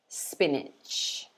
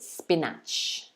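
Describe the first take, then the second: First: The second vowel matches the first vowel. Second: The second vowel differs from the first vowel. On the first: The speaker calls it right. "the A sounds exactly the same as the I" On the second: The speaker calls it wrong. "Some students try to pronounce it"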